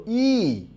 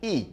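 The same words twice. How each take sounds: First: ই held long and higher; long vowel. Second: ই said short and quick; short vowel. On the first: Teacher showing students the long vowel, ই drawn out high. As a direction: stretch ই out as one long sound. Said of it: "একটাকে দীর্ঘ করে বলি". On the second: Teacher showing students the short vowel, ই kept brief. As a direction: cut ই short, no lengthening. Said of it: "একটাকে কম রস বা আশ দিয়ে বলি". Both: Shown as a demonstration.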